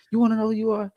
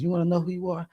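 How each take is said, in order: First: "wanna" pushed up higher on the repeat; pressed repeat. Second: Said in the usual way. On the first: Retold or imitated. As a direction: hit "wanna" harder the second time.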